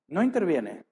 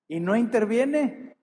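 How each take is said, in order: First: Said in the usual way. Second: Higher, slow, stretched-out lament; mock despair on no interviene, drawn out high; anguished complaint. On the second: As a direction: cry it out like a hurt believer. Voicing a sufferer's complaint.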